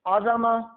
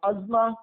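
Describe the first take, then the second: First: The z is followed by a short a vowel. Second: The z runs straight into m, no vowel. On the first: It means greatness. The speaker calls it right. "ज़ुआ के फतह ज़बर के साथ" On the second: It means a bone or a piece of bone. The speaker calls it wrong. "ज़ुआ के सुकून के साथ"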